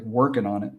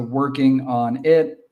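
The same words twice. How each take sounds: First: "working on it" as "workinonit"; soft, run-together "working on it"; casual blended "workin-onit"; linked form. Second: Slow, separate WORKING ON IT; careful unlinked "working on it"; full form. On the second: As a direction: sound each word of "working on it". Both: Shown as a demonstration. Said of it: "sounds like".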